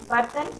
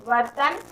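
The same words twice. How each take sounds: The two takes are said the same way.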